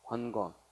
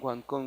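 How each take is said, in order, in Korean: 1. 두 번째 음절은 평음으로 시작해요. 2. 두 번째 음절은 경음으로 시작해요.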